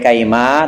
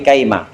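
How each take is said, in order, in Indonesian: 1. Vokal akhirnya dibaca panjang. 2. Vokal akhirnya dibaca pendek. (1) "Nggak boleh"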